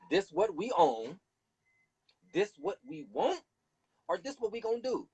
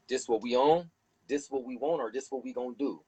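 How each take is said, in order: First: High demanding. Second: Said in the usual way. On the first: Shown as a demonstration. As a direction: lay down the demands, high and firm. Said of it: "Nothing else to talk about". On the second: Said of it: "go to Capitol Hill and say".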